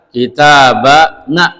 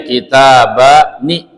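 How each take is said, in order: First: The final nun carries an a vowel. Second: The final nun carries an i vowel. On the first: This is a rare form found mostly in poetry. "Ada juga yang baca kitabana" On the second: This is the form most Arabs use. "ni kasroh ya"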